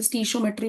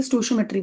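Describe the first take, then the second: First: "stoichiometry" opened with "stee", as STEE-sho-metry; alternative pronunciation. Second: "stoichiometry" opened with "sto", as STO-sho-metry; speaker's preferred pronunciation. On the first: Teacher showing students how some people say it, "stoichiometry" as STEE-sho-metry. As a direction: say "stoichiometry" with an ee in the first syllable. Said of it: "कुछ लोग इसे stoichiometry भी कहते हैं".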